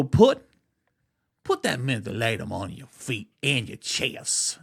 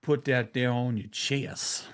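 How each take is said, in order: First: Exaggerated yelp on the first put, then settling; a hammed-up wrong take of the old aunt; overdone great aunt. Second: Corrected great aunt, mildly slowed. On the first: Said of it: "she wouldn't say it like that". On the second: Retold or imitated. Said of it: "My Aunt Evelyn didn't talk like that".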